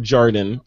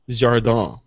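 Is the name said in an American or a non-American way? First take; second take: American; non-American. First: The name is said with an American accent. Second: The name is said without an American accent.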